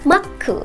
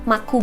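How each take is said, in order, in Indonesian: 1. Bunyi k ditahan dan dibaca rangkap. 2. Bunyi k dibaca pendek dan tunggal. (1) "tapi ada penekanannya" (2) "bukan maku biasa"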